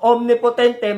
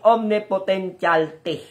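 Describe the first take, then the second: First: The word ends with a short 'potente' sound. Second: The word ends with a longer 'potentialte' sound.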